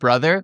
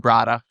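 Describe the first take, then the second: First: It is said with a standard English pronunciation. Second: It is said with a Pidgin pronunciation. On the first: "instead of brother" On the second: "we'll say brada"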